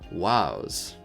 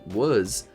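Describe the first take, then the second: First: Its vowel sounds close to 'wows'. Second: It has the ordinary everyday vowel sound. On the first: The speaker calls it right. "the more princely intonation was more like wows" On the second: The speaker calls it wrong. "which was pronounced as was"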